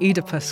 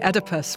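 First: The name has a British pronunciation. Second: The name has an American pronunciation. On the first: This is how the speaker's own side says it. "where I would say Oedipus" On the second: This is how the other side of the Atlantic says it. "you say Oedipus"

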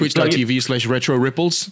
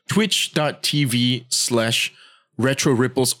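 First: It is said at a normal, quicker pace. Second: It is said more slowly.

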